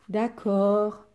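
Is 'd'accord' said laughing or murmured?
murmured. It is murmured quietly. "murmura le méchant méchant loup"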